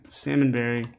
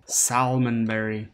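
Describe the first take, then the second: First: Salmonberry said as "sammonberry", no L sound; silent L. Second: Salmonberry said slowly with a clear L, "sal-mon-berry"; L sounded. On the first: First try at the berry name, L dropped. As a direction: drop the L in Salmonberry. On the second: Second try at the berry name, L said clearly. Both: Shown as a demonstration.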